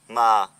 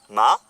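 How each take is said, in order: First: The pitch falls on the word. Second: The pitch rises on the word. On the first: It means witch. "Si on le prononce avec un accent qui tombe" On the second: It means mother. "Si on le prononce avec un accent montant"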